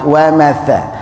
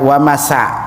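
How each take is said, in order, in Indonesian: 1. Konsonan di tengah itu bunyi th. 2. Konsonan di tengah itu bunyi s. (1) "tapi wa matha" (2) "bukan wa masa"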